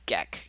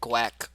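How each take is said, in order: First: The name rhymes with neck, like guess. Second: The name starts with a gw sound. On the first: The speaker calls it right. "It's Geck. It's like guess" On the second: The speaker calls it wrong. "Everyone says like Gweck"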